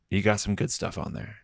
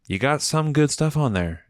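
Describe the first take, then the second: First: Said in the usual way. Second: "good" lifted high in an insistent repeat; emphatic repeat. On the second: Real, not acted. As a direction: hand over the compliment emphatically, pitched up on "good". Compliment repeated with more emphasis.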